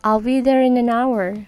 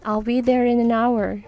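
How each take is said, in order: The two takes are said the same way.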